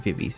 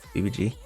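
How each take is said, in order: First: The name ends with a 'z' sound. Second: The name ends with a 'jee' sound. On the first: "I'm gonna say Vivi's anyways" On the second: "which is their Hangul pronunciation"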